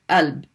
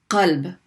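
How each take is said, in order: First: The word begins with a glottal stop. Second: The word begins with a deep q sound. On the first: "people pronounce it alb, like with a, with a hamza" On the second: "which means heart"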